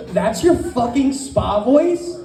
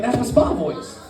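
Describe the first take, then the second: First: Slow, incredulous echo. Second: Lightly put-on spa voice. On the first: Acted. Wife challenging husband's spa voice, slow and incredulous. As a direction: throw it back slowly in disbelief. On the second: Husband explaining himself to wife, in his spa voice. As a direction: answer in a hint of spa voice.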